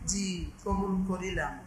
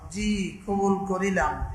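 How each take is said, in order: First: The phrase is said quietly. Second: The phrase is said loudly. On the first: "একটু আসতে বলে" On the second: "এত জোরে বলে"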